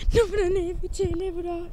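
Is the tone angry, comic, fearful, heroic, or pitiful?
fearful. It is said in a fearful tone.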